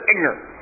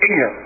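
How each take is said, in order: First: The word is said with all its syllables. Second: The word is clipped, with syllables dropped.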